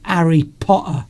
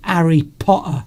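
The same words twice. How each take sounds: First: It is said in a Cockney accent. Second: It is said in a Cockney accent.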